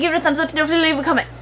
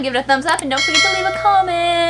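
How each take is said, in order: First: It is said at a rushed, fast pace. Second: It is said at a normal speaking pace.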